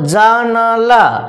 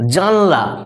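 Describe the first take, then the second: First: The vowel after n is kept: ja-na-la. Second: The vowel after n is dropped: jan-la. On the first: "দন্তনের সঙ্গে আ উচ্চারণটা করা হয়" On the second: "আটাকে বাদ দিয়ে দিচ্ছি"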